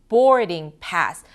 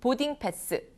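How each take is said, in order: First: The first vowel is said long. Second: The first vowel is said short. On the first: "이 영어는 모음 길이가 중요합니다" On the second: "보딩 패스 하는 거고"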